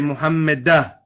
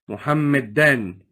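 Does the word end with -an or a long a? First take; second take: long a; -an. First: The word ends with a long a, no n. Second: The word ends with an -an sound. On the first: The speaker stops at this word. "If I was to stop here, I say Muhammadah, and I would drop one of my fathas" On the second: The word is not at the end of the phrase. "if it's Mansoob"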